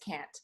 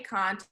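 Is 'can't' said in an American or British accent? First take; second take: American; British. First: The word is said with an American vowel. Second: The word is said with a British vowel. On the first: This is the form thought cooler and more desirable. The speaker calls it right. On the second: This is the form learned from teachers. The speaker calls it wrong. "you don't say"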